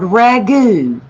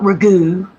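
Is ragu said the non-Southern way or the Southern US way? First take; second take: Southern US; non-Southern. First: It is said with a Southern US stress pattern. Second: It is said with a non-Southern stress pattern. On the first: The speaker calls it right. "In the South, it's called ragu" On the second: The speaker calls it wrong. "not ragu"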